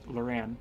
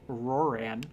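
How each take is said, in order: First: The name begins with an L sound. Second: The name begins with an R sound. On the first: The speaker calls it right. "It's it's Loran" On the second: The speaker calls it wrong. "have this first thing start with an R"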